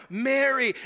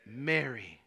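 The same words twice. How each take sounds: First: Said in the usual way. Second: Low, soft and slow; tender naming. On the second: Acted. Jesus softly calling Mary by name. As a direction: say her name gently, like a whisper of recognition.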